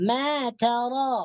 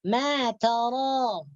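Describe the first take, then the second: Both takes have the same delivery.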